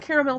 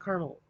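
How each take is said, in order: First: The word is said with three full syllables. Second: The word is said with two syllables. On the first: This is how the word is written. "It's spelled caramel" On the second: This is how many people say it. "a lot of people pronounce it caramel"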